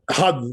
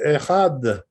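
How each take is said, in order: First: The opening vowel is left out. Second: The word begins with its opening vowel. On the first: The speaker calls it wrong. "Not had" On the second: The speaker calls it right. "Make sure you say echad"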